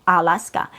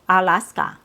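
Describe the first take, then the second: First: All three vowels are full and equally strong. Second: All three vowels are full and equally strong.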